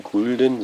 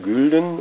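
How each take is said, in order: First: Said in the usual way. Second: Gülden with rounded, lip-protruded ü; rounded vowel. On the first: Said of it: "Man spricht eben nicht von Gulden". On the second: Shown as a demonstration. Lecturer demonstrating Rundung to students, Gülden with rounded ü. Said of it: "sondern von Gülden".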